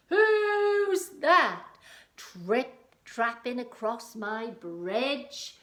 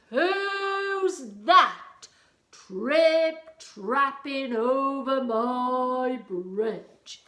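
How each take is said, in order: First: High, loud, very slow troll roar. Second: Big, loud, higher troll bellow, dragging the words out; booming troll voice. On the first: Troll challenging whoever crosses his bridge, roaring. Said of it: "he roared". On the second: Troll challenging whoever crosses his bridge, booming. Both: Acted.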